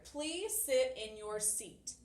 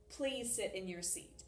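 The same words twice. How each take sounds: First: Slow, deliberate classroom example; slow example read. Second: Said in the usual way. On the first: Shown as a demonstration. Teacher reading an example command, slow and clear. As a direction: spell the command out slowly for the class. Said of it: "this example I have right here". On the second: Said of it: "It doesn't say".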